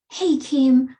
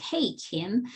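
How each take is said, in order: First: Sharp, loud accusing hail; accusing call-out. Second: Softer, friendly hail; gentle calling in. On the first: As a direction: call her name like an accusation. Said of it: "you're not leading with". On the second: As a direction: greet her like a friend you trust. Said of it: "coming at it like". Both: Shown as a demonstration.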